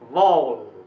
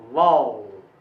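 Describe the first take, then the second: No difference in how they are said.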